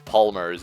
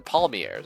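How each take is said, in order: First: The ending sounds like 'mers' with an r. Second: The ending sounds like 'yay' with no final r. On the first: The speaker calls it wrong. "I mispronounced those ter- uh, as palmers" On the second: The speaker calls it right. "they're palmiers"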